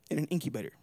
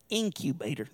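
First: Said in the usual way. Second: Stretched southern "Incubator"; southern drawl. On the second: Shown as a demonstration. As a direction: draw out "Incubator" in a southern accent. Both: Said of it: "That's a good southern drawl".

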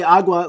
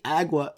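First: "agua" with open AH, AH-gwah; Spanish pronunciation. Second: "agua" as AG-wuh, flat English A; anglicized mispronunciation. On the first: Shown as a demonstration. Podcaster addressing non-native speakers, Spanish "agua". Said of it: "if you guys say agua". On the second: Retold or imitated. Mocking non-native speakers, anglicized AG-wuh "agua". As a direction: say "agua" with the vowel of "bag". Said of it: "don't say agua. Or they say, like, agua".

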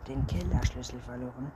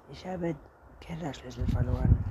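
First: Father's mildly shocked query; incredulous exclamation. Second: Mildly reluctant statement; hesitant confession. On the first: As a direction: echo it back as a disbelieving question. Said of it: "rief der Vater". (ungläubige Nachfrage) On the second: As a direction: admit it with a little hesitation. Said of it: "Anton zögerte". (zögerndes Geständnis) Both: A narrator's reading.

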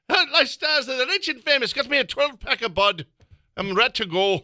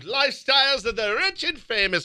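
First: Much higher, hammed-up Robin Leach host voice, Irish-tinged; brash TV host voice with a beer in hand; Robin Leach impression. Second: Higher, Irish-tinged announcer voice as Robin Leach; a first go at Robin Leach with a stray Irish lilt; mock celebrity host, Irish-flavoured. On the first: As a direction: overblow the celebrity host for laughs. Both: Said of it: "I don't know why I made him Irish".

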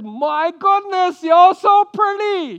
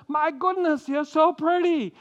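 First: High, loud, slow, admiring gasp; Abraham admiring wife. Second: Higher admiring exclamation; lightly voiced, a touch of awe; Abraham admiring wife. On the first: Retold or imitated. Abraham to his wife, a high loud admiring gush. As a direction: gush over her looks, much higher and louder. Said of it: "he looks at his wife and he says". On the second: Abraham to his wife, a lighter higher admiring exclamation. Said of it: "he looks at her and he says".

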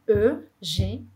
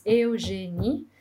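First: "Eugenie" opening on one rounded French "eu" sound; careful French "Eugenie", E and U merged into one vowel; French vowel pronunciation. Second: "Eugenie" drawn out with separate E and U vowels; slow "Eugenie" starting "eh-oo"; Brazilian vowels pronunciation. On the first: Retold or imitated. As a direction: say "Eugenie" syllable by syllable, first vowel like "uh". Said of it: "o som do E mais o U, na verdade, é E". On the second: Shown as a demonstration. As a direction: sound each vowel in "Eugenie", slowly, "eh-oo". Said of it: "Se no Brasil a gente pronuncia as vogais".

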